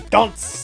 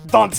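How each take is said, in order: First: The A vowel is stressed and drawn out. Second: It is said with a French pronunciation. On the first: "put the emphasis on A" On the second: "like I'm French or something"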